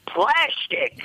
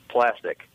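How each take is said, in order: First: High, screeching comic character voice; Gilbert Gottfried. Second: Said in the usual way. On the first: Retold or imitated. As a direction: screech it in exasperation, pitched way up. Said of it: "he's gotta do that fucking voice".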